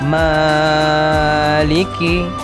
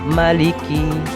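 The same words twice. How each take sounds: First: The first vowel is drawn out long. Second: The first vowel is cut short. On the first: The speaker calls it right. "bacaan panjang" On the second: The speaker calls it wrong. "menjadi pendek"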